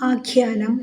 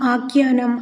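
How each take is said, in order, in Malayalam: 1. രണ്ടാമത്തെ വ്യഞ്ജനം സ്വരമില്ലാത്ത, aspirated kh ആണ്. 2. രണ്ടാമത്തെ വ്യഞ്ജനം സ്വരമുള്ള g പോലെയാണ് ഉച്ചരിക്കുന്നത്. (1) "എന്ന് പറയാൻ ശ്രദ്ധിക്കുമല്ലോ" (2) "എന്ന് പറയാതെ"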